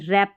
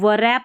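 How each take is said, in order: First: No w sound is heard before the r. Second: A w sound is heard before the r. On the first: The speaker calls it right. "रैप पढ़ेंगे क्योंकि डब्ल्यू silent है" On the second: The speaker calls it wrong. "इसको वरैप नहीं"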